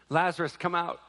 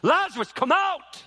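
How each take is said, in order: First: It is said plainly at normal loudness. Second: It is yelled as loudly as possible. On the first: The command was given quietly. The speaker calls it wrong. "we think that he just said it" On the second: The command was shouted for all to hear. The speaker calls it right. "he yelled it as loud as he could"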